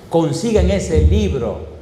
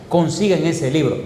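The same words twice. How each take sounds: First: "Consigan ese libro" slow, each word pressed; slow it down and press every word; emphatic repeat. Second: Said in the usual way. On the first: Shown as a demonstration. Preacher insisting listeners get the book, slow and pressed.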